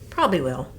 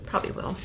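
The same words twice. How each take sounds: First: Said in the usual way. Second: Soft whispered echo; whispered repeat. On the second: Real, not acted. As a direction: breathe the repeat under your breath.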